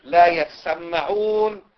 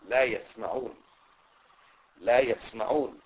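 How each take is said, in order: First: يسمعون said slowly as yassamma'un, with doubled s and m; doubled reading. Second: يسمعون said yasma'un with no doubled letters; light reading. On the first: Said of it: "أما على قراءة التشديد". (قراءة التشديد: يسّمّعون ببطء مع التشديد) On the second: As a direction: read لا يسمعون light, with a plain single s and m. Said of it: "لأنه في قراءة من خفف". (قراءة التخفيف: يسمعون بلا تشديد) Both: Shown as a demonstration.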